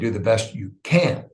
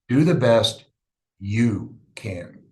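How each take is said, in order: First: The word 'you' is not stressed. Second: The word 'you' is stressed.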